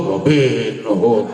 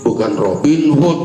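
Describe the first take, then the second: First: Robin Hood drawn out slow with a laugh; Robin Hood said slowly. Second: Said in the usual way. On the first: Shown as a demonstration. Preacher teasing the congregation, drawing out Robin Hood slowly.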